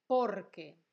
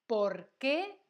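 First: "Porque" loud on por, falling away; answer stress on POR. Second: "¿Por qué?" loud, rising on a stressed qué; question stress on QUÉ. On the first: Teacher demonstrating the answer word, "Porque" stressed on por and falling. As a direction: punch the por of "Porque", let que drop. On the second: Teacher demonstrating the question word, "¿Por qué?" rising on stressed qué. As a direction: ask "¿Por qué?" with the voice lifting on qué. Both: Shown as a demonstration. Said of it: "fíjate que no lo pronuncio igual".

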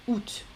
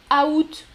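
First: Août softer, one syllable with T; août as "oot". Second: Août in two syllables, T sounded; août as "a-oot". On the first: Teacher contrasts common form, août as "oot". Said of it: "la prononciation la plus commune". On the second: Teacher contrasts regional form, août as "a-oot". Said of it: "dans certaines régions de France". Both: Shown as a demonstration.

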